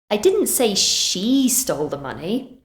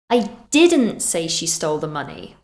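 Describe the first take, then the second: First: The stress falls on the word she. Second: The stress falls on the word didn't. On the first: Someone else stole the money. "Maybe I said someone else did" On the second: The speaker denies saying it. "We're emphasizing that this is not something we did"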